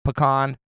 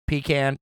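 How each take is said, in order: First: "pecan" said puh-KAHN. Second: "pecan" said PEE-can. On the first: Host listing ways to say it, "pecan" as puh-KAHN. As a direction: say "pecan" with a short first syllable, ending in KAHN. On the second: Host listing ways to say it, "pecan" as PEE-can. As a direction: say "pecan" with a long EE, then can. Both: Shown as a demonstration. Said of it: "whatever way you say it".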